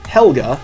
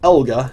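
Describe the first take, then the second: First: The name starts with an H sound. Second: The name starts with a vowel, no H. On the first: "not Helga" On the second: "I said it without the H"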